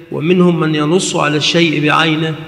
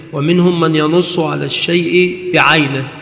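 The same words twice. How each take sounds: No difference in how they are said.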